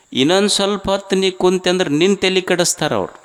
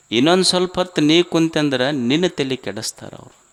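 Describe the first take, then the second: First: Higher and fast, ಇನ್ನೊಂದು hit hard; fast emphatic warning. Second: Said in the usual way. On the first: Shown as a demonstration. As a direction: rush the warning out, pitched up. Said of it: "line repeated, first faster". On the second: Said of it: "line repeated, second plainer".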